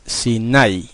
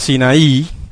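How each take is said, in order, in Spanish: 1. El acento está en la segunda sílaba. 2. El acento está en la última sílaba. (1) "Se acentúa en la A y no en la I" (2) "La mayoría de la gente dice Sinaí"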